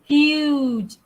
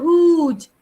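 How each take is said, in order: First: A 'y' glide comes before the long vowel. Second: The vowel starts directly, with no 'y' glide. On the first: The speaker calls it right. "Sebab tu kita masukkan bunyi yeh ni. Huge. Ada bunyi yeh dekat situ" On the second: The speaker calls it wrong. "Kita tak sebut huge"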